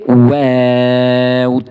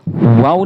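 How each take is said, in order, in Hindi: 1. स्वर खींचकर लंबा पढ़ा गया है। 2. स्वर छोटा है, खींचा हुआ नहीं। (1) "बल्कि वाव, तीन अलिफ के लिमिट में इसको खींच के पढ़ना है" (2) "इसको हम वाव नहीं बोलेंगे"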